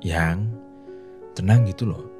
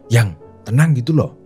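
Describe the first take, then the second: First: The voice is soft and slow. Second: The voice is high-pitched and fast. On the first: It makes the listener calmer and more relaxed. The speaker calls it right. "Dengan nada yang halus dan intonasi yang pelan" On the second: It makes the listener tense and more panicked. The speaker calls it wrong. "nada yang tinggi dan intonasi yang cepat seperti ini"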